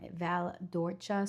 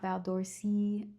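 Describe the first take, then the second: First: The c in Orcia is a ch sound. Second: The c in Orcia is not a ch sound. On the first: The speaker calls it right. "the C is pronounced like a C H" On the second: The speaker calls it wrong. "not Val d'Orsi"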